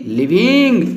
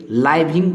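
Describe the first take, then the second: First: लिविंग with a short "li" first syllable; correct pronunciation. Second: लाइविंग with a long "laai" first syllable; wrong pronunciation. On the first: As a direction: open लिविंग on short i, "li-ving". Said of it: "इसको हम लोग लिविंग पढ़ेंगे". (लिविंग, छोटी इ से "लि-विंग") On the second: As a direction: open लाइविंग like the word "lie". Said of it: "लेकिन नहीं". (लाइविंग, गलत उच्चारण "लाइ" से) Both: Shown as a demonstration.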